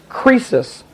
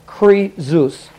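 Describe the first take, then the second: First: The middle consonant is an S sound. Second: The middle consonant is a Z sound. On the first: This is the common way people say the name. "is the way that it's usually" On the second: This is how a pronunciation key gives the name. "like a Z"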